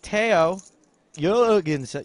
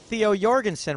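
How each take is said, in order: First: The name is said with a Danish pronunciation. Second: The name is said with an English pronunciation. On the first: The speaker calls it right. "Says it's it's Theo Jorgensen" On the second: The speaker calls it wrong. "we've been saying Theo Jorgensen wrong"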